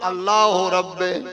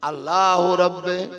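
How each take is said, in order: First: The last word ends with an 'eh' vowel. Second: The same.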